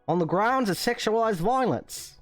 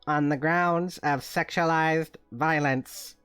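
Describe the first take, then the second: First: It is said in a put-on Australian accent. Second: It is said in the speaker's usual accent.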